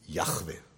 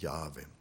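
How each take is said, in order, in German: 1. Der Name wird mit hartem Ch-Laut gesprochen. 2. Der Name wird ohne Ch-Laut gesprochen. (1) "Was definitiv falsch ist" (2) "Es gibt kein Ch in diesem Namen. Es ist"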